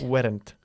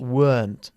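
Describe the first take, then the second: First: The word is said with two syllables. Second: The word is said with one syllable. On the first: The speaker calls it wrong. "Not weren't" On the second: The speaker calls it right. "Es una sola sílaba"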